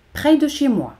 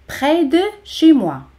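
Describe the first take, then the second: First: Said in the usual way. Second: "près ... de ... chez moi", carefully spaced; word by word. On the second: Shown as a demonstration. Separated model, then joined up.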